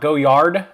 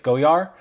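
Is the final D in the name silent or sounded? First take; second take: sounded; silent. First: The final D sound is pronounced. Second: The final D sound is left silent. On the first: The speaker calls it wrong. "not Goyard. They don't pronounce the D" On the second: The speaker calls it right. "They don't pronounce the D. It's Goyard"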